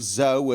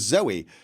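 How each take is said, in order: First: The name is said as one syllable. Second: The name is said as two syllables. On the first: "this was the spelling of Zoe ... Kind of like Joe" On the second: "with a Y was ... Zoe. Kind of like ... Joey"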